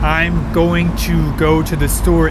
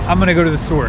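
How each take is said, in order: First: Each word is said separately and fully. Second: The words are run together and reduced.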